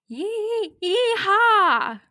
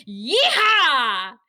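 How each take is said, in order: First: High, halting attempt at a cowboy yell; badly faked cowboy whoop, pitched way up; unconvincing yeehaw. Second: Loud, whooping cowboy yell; convincing cowboy yeehaw. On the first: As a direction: stall on the first syllable, then squeal it out. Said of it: "I can't do it as convincingly". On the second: Retold or imitated. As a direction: let out a full-throated, confident yeehaw. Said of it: "as convincingly as Andy".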